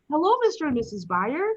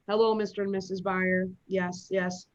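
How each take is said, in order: First: It sounds cheerful, as if smiling. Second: It sounds bored, like a chore.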